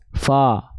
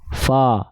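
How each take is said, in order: No difference in how they are said.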